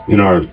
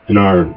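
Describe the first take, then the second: No difference in how they are said.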